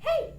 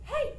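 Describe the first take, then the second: First: It is light and airy head voice. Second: The same.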